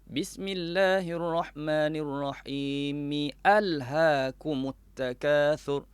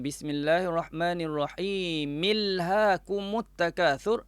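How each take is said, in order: First: The opening 'a' is clearly pronounced after Bismillah. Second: The opening 'a' is dropped, merging into Bismillah. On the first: The speaker calls it right. "dia tetap dibaca dengan A" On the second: The speaker calls it wrong. "dah melakukan satu kesilapan dari segi hukum tajwid"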